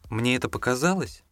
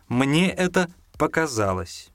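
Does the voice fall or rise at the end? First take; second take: rise; fall. First: The pitch rises at the end of the phrase. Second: The pitch falls at the end of the phrase. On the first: It is asked as a question. "Восходящее, когда мы повышаем тон. Пример – классический вопрос" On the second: It is stated as a finished statement. "Нисходящее, понижаем. Мы используем эту мелодику, когда ставим точку"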